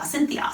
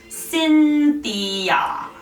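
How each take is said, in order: First: The name is said quickly, in rapid repetition. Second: The name is said slowly, each sound articulated carefully. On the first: "Let's go nice and quick" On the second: "Let's really enunciate this"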